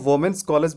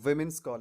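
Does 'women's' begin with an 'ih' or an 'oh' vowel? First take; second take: oh; ih. First: The first vowel of 'women's' sounds like 'oh'. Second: The first vowel of 'women's' sounds like 'ih'. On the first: The speaker calls it wrong. "वोमेन्स college बोलना गलत है" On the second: The speaker calls it right. "विमेन्स college बोलते हैं"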